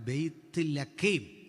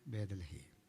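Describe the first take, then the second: First: It is said as two parts, Beyth Lakhem. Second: It is said as one word, Bedalahem. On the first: The speaker calls it right. "വാസ്തവത്തിൽ ഉച്ചാരണം തെറ്റ ബെയ്ത്ത് ലഖേം ഇതാണ് പറയണ്ടേ" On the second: The speaker calls it wrong. "നമ്മൾ പറഞ്ഞത് എങ്ങനെ?"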